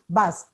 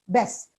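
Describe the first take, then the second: First: The vowel is the short 'uh' sound. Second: The vowel sounds like the 'e' in best. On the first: The speaker calls it right. "it's a bus actually" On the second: The speaker calls it wrong. "It's invariably pronounced as best"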